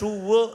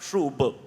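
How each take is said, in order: First: The word ends with a v sound. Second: The word ends with a b sound.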